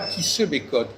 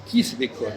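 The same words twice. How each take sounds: First: The vowel in 'se' is pronounced fully. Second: The vowel in 'se' is dropped, giving s'bécote. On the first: "il dit pas qui se bécote" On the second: "il dit qui se bécote"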